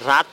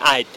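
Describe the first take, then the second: First: The word begins with an r sound. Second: The word begins with a vowel, no r. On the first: This is the standard form of the word. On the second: This is how regional speakers say it.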